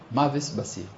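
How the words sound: The last word begins with an s sound. "לא ידעו להבחין בין סין לשין"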